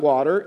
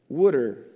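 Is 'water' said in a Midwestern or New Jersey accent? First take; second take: Midwestern; New Jersey. First: Water is said with a Midwestern pronunciation. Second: Water is said with a New Jersey pronunciation. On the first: This is how outsiders say it. The speaker calls it wrong. "and I was from the Midwest, it's not water" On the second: This is how locals say it. The speaker calls it right. "it's water"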